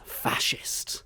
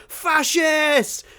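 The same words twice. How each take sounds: First: Unvoiced mutter of Fascist; whispered insult. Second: Much higher, louder yell; shouted Fascist with a gun in hand; shouted insult. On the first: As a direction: hiss Fascist under the breath. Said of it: "she looks up and goes". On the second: Retold or imitated. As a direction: yell it as she runs out with a shotgun. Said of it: "She's like".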